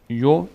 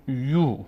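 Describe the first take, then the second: First: "یو" as a short yo; brief o in "یو"; short vowel. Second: "یو" as a long yoo; long vowel. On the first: Teacher showing ya alone, short "یو" as yo. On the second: Teacher adding vav to ya, long "یو" as yoo. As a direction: stretch the oo in "یو". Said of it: "از صدای کشیدهٔ". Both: Shown as a demonstration.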